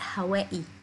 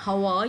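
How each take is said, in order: First: The name ends with a 'wa-ee' sound. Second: The name ends with a 'wai' sound.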